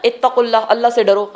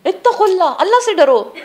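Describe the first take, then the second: First: Said in the usual way. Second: High-pitched, urgent preacher's warning; raised-pitch fervent admonition; impassioned exhortation. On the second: Real, not acted. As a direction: cry it out as a warning, pitched well up. Urges listeners to fear Allah.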